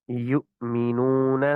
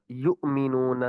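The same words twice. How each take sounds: First: یؤمنون slow, the hamza a light throat catch; teacher draws out یؤمنون with a gentle glottal stop; correct hamza. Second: یؤمنون with a heavy jolt from the belly; a hard shove on the hamza in یؤمنون; wrong hamza. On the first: Teacher showing the right hamza, slow and light. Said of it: "جھٹکے سے پڑھیں گے مگر ناف نہیں". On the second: Teacher shows the mistake: a jolt from the belly. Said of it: "اس طرح جھٹکے سے پڑھنا ... جس سے ناف ہلے". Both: Shown as a demonstration.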